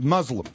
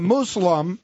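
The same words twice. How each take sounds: First: The first syllable sounds like 'muzz'. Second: The first syllable sounds like 'moose'.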